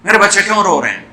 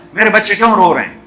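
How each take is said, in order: First: Hurried anxious. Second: Anxious. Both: A narrator's reading. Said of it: "اور بے قرار ہو کے پوچھا".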